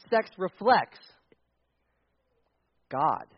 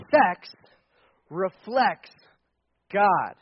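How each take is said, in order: First: Said in the usual way. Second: Sex punched loud, then a pause before God; stress on Sex. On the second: Shown as a demonstration. Pastor to the church, repeating it with Sex punched loud. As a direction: hit the word Sex hard, then land God.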